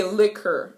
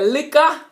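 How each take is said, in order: First: Said in the usual way. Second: Liquor with the final r dropped, likka; Jamaican liquor. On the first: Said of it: "we don't say liquor". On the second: Shown as a demonstration. Teacher demonstrating liquor as likka. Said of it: "We say liquor".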